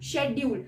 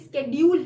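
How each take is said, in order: First: The word begins with an sh sound. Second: The word begins with an sk sound. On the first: The speaker calls it wrong. "शेड्यूल बोला बोलते हैं इसको" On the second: The speaker calls it right. "असली pronunciation इसकी स्केड्यूल है"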